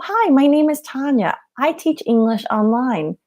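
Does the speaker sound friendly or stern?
friendly. The voice sounds relaxed and friendly. The speaker is at ease and approachable. The speaker calls it right. "every time I say it, my body is relaxed"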